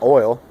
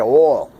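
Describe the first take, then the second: First: It is said in a general American accent. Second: It is said in a Southern American accent. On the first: "not oil" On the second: "Down there they say oil"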